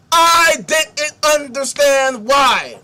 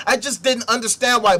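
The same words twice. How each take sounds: First: "I didn't understand why" slow and higher, each word hammered; heavy emphasis. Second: Said in the usual way. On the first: Retold or imitated. Reading out Sarah's bewildered account, "I didn't understand why" heavily emphasized. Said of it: "I didn't add that emphasis. The emphasis was there". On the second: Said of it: "I didn't add that emphasis".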